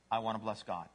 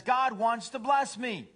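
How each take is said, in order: First: Low, understated devoted dog; humble dog. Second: High, drawn-out cat boast; self-centered cat. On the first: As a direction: answer low and simply, lightly voiced. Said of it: "What's a dog say?". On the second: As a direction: crow it slowly, pitched up. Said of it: "A cat says". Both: Acted.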